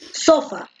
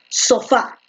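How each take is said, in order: First: The stress is on the first syllable. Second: The stress is on the last syllable. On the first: The speaker calls it wrong. "tú no dices sofá" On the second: The speaker calls it right. "tú dices sofá"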